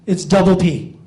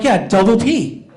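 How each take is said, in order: First: Said in the usual way. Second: "double P" slow and insistent; emphatic repeat. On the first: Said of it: "and I say". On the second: Retold or imitated. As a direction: spell it out again, pointedly. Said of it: "I'm like".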